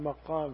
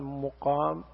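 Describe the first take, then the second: First: The first syllable has the vowel 'a'. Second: The first syllable has the vowel 'u'. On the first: It means the place where one stands. "مقام فتح الميم" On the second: It means the manner of standing. "مقام بضم الميم"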